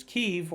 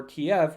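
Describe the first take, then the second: First: "Kyiv" said as one syllable, KEEV; one-syllable pronunciation. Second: "Kiev" said in two syllables, kee-EV; two-syllable pronunciation. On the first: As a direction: pronounce "Kyiv" to rhyme with sleeve. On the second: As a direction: pronounce "Kiev" as KEE plus EV. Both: Shown as a demonstration. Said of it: "however you wanna pronounce it".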